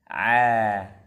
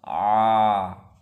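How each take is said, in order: First: The sound is light and open. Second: The sound is heavy and muffled. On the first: The speaker calls it right. "Maka datarkan lidahnya" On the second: The speaker calls it wrong. "Kalau kita cekungkan lidahnya, maka akan keluar a. Suaranya akan terkurung"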